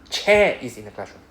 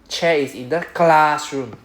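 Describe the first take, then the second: First: The stress is on the word chair. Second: The stress is on the word classroom.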